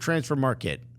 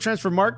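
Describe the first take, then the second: First: The name ends in a two-syllable 'market'. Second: The name ends in a one-syllable 'mark'. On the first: The speaker calls it right. "It is market" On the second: The speaker calls it wrong. "are we calling it transfer mark"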